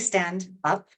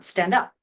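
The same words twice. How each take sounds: First: The words are said separately with a break. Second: The words run together as one blended unit. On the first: The speaker calls it wrong. "I don't say stand up" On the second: The speaker calls it right. "No, stand up"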